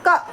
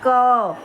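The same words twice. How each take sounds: First: The consonant is said alone, with no vowel. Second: The consonant is followed by a short a vowel. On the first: "जब तक ये अ के बिना था" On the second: "इस क में हमने अ को जोड़ के पूरा कर दिया"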